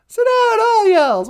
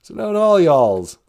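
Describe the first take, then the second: First: Loud Southern call. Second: Deep Southern voice, spoken low; Southern accent. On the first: Repeating the Southern line louder. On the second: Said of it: "As they would say in the South". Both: Shown as a demonstration.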